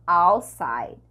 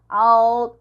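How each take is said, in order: First: "Outside" as "ow-side", no T; "Outside" gliding straight from "ou" into S; T omitted. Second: "Out" with its final T sounded; loud "Out" keeping the T; T pronounced. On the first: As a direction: drop the T in "Outside". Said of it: "ou pode ser omitido". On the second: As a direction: finish "Out" on a clear T. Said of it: "O T pode ser falado". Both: Shown as a demonstration.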